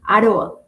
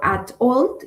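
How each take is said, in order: First: The t sounds soft, like an R. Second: The t is clearly and crisply pronounced. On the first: "En americano suena como con una R" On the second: "si es un inglés con acento británico, es mucho más marcado"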